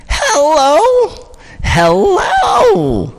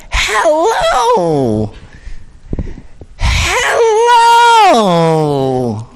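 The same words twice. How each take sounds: First: High, loud "Hello" breaking and cracking; cracking high "Hello" from a vocal coach drill. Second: Crouch and call it out creepily; creepy crouching scare-actor "Hello!". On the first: Retold or imitated. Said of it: "Now make your voice crack". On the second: Shown as a demonstration. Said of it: "That got a little creepy".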